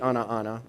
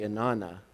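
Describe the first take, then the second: First: It is said as two separate words. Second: It is run together as one word. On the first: "I don't say ana, ana" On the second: "I pronounce it as one singular word"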